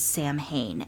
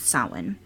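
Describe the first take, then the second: First: The word is sounded out letter by letter. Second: The word is said in its native way. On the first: The speaker calls it wrong. "it looks like it says Samhain" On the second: The speaker calls it right. "their pronunciation is Samhain"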